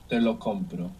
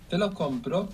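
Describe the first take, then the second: First: The voice falls at the end like a statement. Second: The voice rises at the end like a question. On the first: I buy it for you. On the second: Shall I buy it for you?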